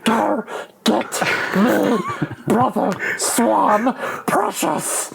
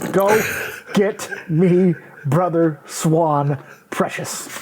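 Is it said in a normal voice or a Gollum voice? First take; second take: Gollum voice; normal voice. First: It is said in a Gollum impression voice. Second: It is said in the speaker's normal voice.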